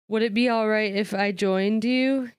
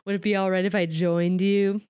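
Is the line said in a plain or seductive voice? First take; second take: plain; seductive. First: It is said in a plain, ordinary voice. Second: It is said in a smooth, seductive voice.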